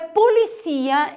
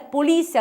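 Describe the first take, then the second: First: It is said with Spanish word stress. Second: It is said with Portuguese word stress. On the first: "em espanhol é policia" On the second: "em português é polícia"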